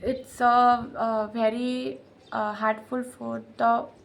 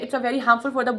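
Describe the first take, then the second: First: It is broken up with hesitant stops. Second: It flows smoothly without any stops. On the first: The speaker sounds unsure. The speaker calls it wrong. "ऐसे नहीं" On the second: The speaker sounds confident. The speaker calls it right. "ऐसे बोलना है"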